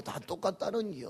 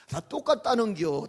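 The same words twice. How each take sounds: First: Said in the usual way. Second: Louder, laughing through the words. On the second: Acted. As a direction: laugh out the punchline. Laughing delivery of punchline.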